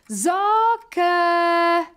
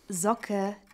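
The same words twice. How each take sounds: First: The name is shouted very loudly. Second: The name is said at normal volume.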